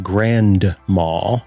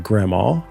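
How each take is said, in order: First: Every sound, including the d, is pronounced. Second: The d is dropped, giving a reduced form. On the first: "I don't say grandma, despite being an enunciator typically" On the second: "I say grandma"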